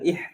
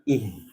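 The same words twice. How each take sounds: First: The h is a tense, throaty h. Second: The h is a plain, breathy h. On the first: The speaker calls it wrong. "Itu H yang di tengah" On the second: The speaker calls it right. "H yang biasa"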